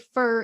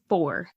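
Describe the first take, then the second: First: The vowel is reduced, sounding like fur. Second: The vowel is full, sounding like for. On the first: This is how the speaker habitually says it. The speaker calls it wrong. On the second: This is how the word is expected to sound. The speaker calls it right.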